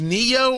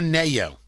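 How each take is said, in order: First: The first syllable sounds like 'nee'. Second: The first syllable sounds like 'nay'. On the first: "Is it Knee" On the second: "or is it Nay?"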